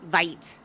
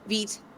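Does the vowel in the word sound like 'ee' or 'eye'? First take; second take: eye; ee. First: The vowel sounds like 'eye' in 'kite'. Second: The vowel sounds like 'ee' in 'feet'. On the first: The speaker calls it wrong. "not Vite, which is how it's spelled" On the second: The speaker calls it right. "it's said as Vite, V E E T"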